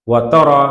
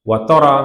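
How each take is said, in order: The two takes are said the same way.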